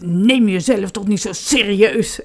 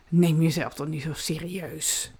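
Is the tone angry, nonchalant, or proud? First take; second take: angry; nonchalant. First: It is said in an angry tone. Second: It is said in a casual, offhand tone. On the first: "dat heel boos zeggen" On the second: "Of doe dat heel nonchalant"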